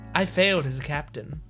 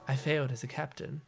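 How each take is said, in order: First: It is said brightly, as if smiling. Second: It is said in a sad, downcast tone. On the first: Positivity is trying to cover the hurt. "he'll deliver it with a big smile on his face" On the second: The sadness is shown openly. "I'm going to deliver them in a sad way"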